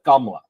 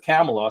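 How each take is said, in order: First: The name is said short and clipped. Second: The name is said long and drawn out. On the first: This is how an Indian family says it. "because we're Indian, we pronounce it Kamla" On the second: This is how Americans say it. "sounds too American and drawn out"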